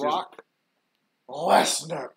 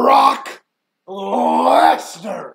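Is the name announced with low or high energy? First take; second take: low; high. First: The name is announced with less energy. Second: The name is announced with more energy.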